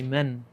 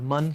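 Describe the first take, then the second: First: The vowel is closer, as in English 'men'. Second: The vowel is open, as in English 'man'. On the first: The speaker calls it right. "say men. So you get the correct pronunciation right" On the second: The speaker calls it wrong. "Instead of man"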